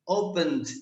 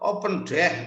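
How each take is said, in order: First: The ending is a light, barely heard d. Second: The ending is a full, separate d syllable. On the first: The speaker calls it right. "ada d tapi tidak tidak tidak jelas banget" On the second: The speaker calls it wrong. "Ada d-nya tapi bukan open deh"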